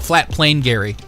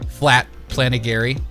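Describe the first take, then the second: First: The name is split into two words. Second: The name is run together as one word. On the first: The speaker calls it right. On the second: The speaker calls it wrong.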